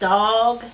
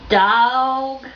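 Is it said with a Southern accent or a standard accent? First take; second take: standard; Southern. First: It is said with a standard accent. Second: It is said with a Southern Kentucky accent.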